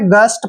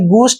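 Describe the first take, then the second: First: The vowel is a short 'uh' sound. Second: The vowel is a short 'oo' sound. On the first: The speaker calls it right. "गस्ट पढ़ना है आपने" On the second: The speaker calls it wrong. "गुस्ट नहीं पढ़ना है इसको"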